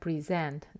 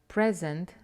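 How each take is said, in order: First: The stress is on the second syllable. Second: The stress is on the first syllable. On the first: It is used as a verb. "the verb" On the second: It is used as a noun. "the gift, the noun"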